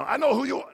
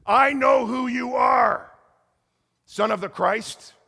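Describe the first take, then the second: First: Put-on failed try at a Dutch accent, high and loud; retry the line in a Dutch accent; Dutch accent attempt. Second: High, loud, slow, eerie shouted accusation; possessed woman's shout. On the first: Preacher retries the woman's line, half-hearted Dutch accent. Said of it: "No, I can't do it". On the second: Retold or imitated. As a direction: loom over him and shout it slowly. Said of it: "you gotta put that with a Dutch accent".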